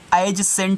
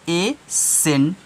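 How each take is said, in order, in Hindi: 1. 'sent' से पहले एक अतिरिक्त z की आवाज़ आती है। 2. 'sent' से पहले कोई अतिरिक्त आवाज़ नहीं आती। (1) "एज सेंट नहीं पढ़ना है" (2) "सी साइलेंट करके ए सेंट पढ़ोगे"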